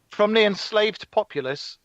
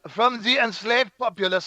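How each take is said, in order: First: It is spoken in a plain English accent. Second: It is spoken with a put-on French accent. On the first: "normal voice" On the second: "Carry on with your French accent"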